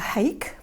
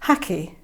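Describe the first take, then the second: First: The word is said as one syllable. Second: The word is said as two syllables. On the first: The speaker calls it wrong. "a lot of people call it a hake because it's spelt H A K E, but I know that's not the correct pronunciation" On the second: The speaker calls it right. "the correct pronunciation is hacky"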